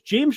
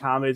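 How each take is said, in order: First: The name is pronounced the English way. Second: The name is pronounced in a non-English way. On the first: The speaker calls it wrong. "a very anglified name" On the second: The speaker calls it right. "it turns out that is how it's pronounced"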